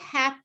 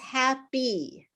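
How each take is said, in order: First: The final syllable is cut off. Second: The final syllable is fully pronounced. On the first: The speaker calls it wrong. "so it's not hap" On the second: The speaker calls it right. "it's happy"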